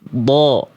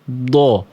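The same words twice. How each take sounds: First: It is said with the cheeks relaxed. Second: It is said with the cheeks puffed out. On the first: The speaker calls it right. "Nggak perlu menggelembung-menggelembung. Biasa aja" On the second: The speaker calls it wrong. "apakah pipinya begini?"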